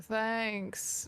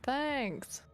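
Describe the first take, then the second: First: It is said in a flat, unenthusiastic tone. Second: It is said in a brighter, enthusiastic tone.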